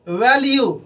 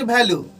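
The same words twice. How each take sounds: First: The first sound is a v. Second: The first sound is an aspirated bh. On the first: The speaker calls it right. "इसका main उच्चारण जो होना चाहिए" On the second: The speaker calls it wrong. "Not"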